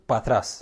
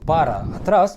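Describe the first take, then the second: First: The phrase is squeezed into one short word. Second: The phrase is said in full as two words. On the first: "بقوا يقولوا باتراس" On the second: "بدل ما يقولوا بارا اتراس"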